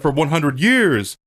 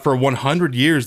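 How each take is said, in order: First: Mock-grand orator, pitched up; lightly hammed-up speech impression; Morpheus. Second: Said in the usual way. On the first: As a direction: declaim it with a swell on the last word. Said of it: "but he says".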